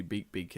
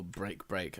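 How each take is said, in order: First: "Beak Beak" without the r, like beak; "Beak Beak" said with no r sound; misread name. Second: "Break Break" with a clear r; corrected name. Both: Shown as a demonstration. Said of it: "I keep reading it as Beak Beak".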